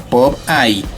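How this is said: It is said with an English pronunciation. "en inglés se pronuncia Pop-Eye"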